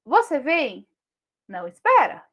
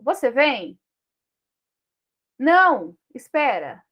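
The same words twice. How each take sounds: First: "Não espera" run together, rising on "espera"; two questions. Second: "Não" loud and cut off by a pause, "espera" falling; punctuated question, then refusal. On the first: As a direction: ask "Você vem", then ask "Não espera" in one breath. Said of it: "a pontuação muda tudo". ("Não espera" junto, em tom de pergunta) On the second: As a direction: ask "Você vem", pause, firm "Não", then instruct "espera". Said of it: "A pontuação pode mudar tudo isso". ("Não" isolado e firme, pausa, "espera" em queda) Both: Shown as a demonstration.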